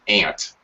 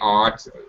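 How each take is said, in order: First: It sounds like the insect name 'ant'. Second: It is said in a British accent. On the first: "a couple of dialects in America that say ant, like the insect" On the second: "British say aunt"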